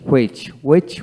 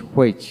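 First: হুইচ begun with a plain w, no h. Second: হুইচ begun with an audible h; sounded H. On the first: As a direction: say হুইচ as "wech". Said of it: "আমেরিকানে অ উচ্চারিত". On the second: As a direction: say হুইচ as "hwech". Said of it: "ব্রিটিশে হ উচ্চারিত হয়". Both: Shown as a demonstration.

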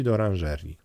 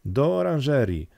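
First: Said in the usual way. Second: "Do" stretched out, the order called ahead; lightly voiced leader's urgent command. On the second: A narrator's reading. Boka leading the boys into the greenhouse, urgent command. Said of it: "zakomenderował Boka".

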